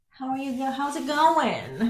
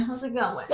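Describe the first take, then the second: First: Playful greeting. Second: Said in the usual way. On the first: Pretend. Mock greeting the wallpaper piece, sing-song. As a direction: greet it like a new friend.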